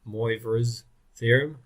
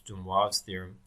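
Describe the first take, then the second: First: The name is pronounced with an English sound. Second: The name is pronounced with a French sound. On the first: The speaker calls it wrong. "That's awful. Don't say that" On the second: The speaker calls it right. "you need to sound a little bit European"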